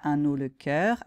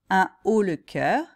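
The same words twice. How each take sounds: First: Un links to haut with an n sound. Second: Un is kept separate, with no n link. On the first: The speaker calls it wrong. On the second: The speaker calls it right.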